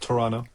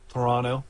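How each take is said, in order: First: The second T sound is dropped entirely. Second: The second T sound is clearly pronounced.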